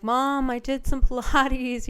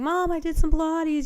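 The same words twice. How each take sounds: First: Slow, proud announcement to mom. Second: Higher, eager repeat of the news; bursting to tell mom again; excited to mom. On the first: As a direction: savour each word telling mom the news. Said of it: "and I was like". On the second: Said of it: "called her up ... nonstop saying". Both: Retold or imitated.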